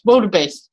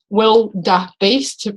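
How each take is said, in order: First: The word is said quickly as one unit. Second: The word is said slowly in separate parts. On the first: "but then saying it fast" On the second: "I'm looking at the word broken up"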